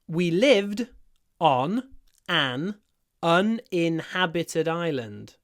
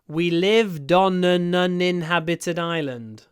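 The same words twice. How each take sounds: First: The sentence is said slowly. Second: The sentence is said at normal speed.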